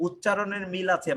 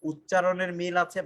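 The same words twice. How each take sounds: First: Said in the usual way. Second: "উচ্চারণের মিল আছে" said slowly, word by word, for the class; slow it down so students catch it; slow emphatic repeat. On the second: Shown as a demonstration. (ধীরে, জোর দিয়ে বলা)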